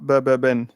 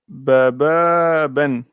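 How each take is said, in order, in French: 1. Les voyelles sont gardées courtes. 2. Les voyelles sont prolongées. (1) "et non pas" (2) "il y a la prolongation"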